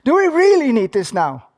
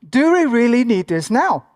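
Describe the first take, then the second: First: The question is said with strong, forceful emphasis. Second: The question is said plainly, without extra emphasis.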